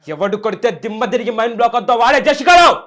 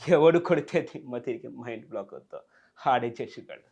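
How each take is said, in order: First: It is said in a furious, angry way. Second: It is said in a comic, laughing way.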